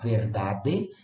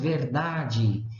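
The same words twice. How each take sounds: First: The final d is a plain, hard d sound. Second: The final d is softened into a j-like sound. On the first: "lá está um D, E no final" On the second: "mas nós falamos verdade"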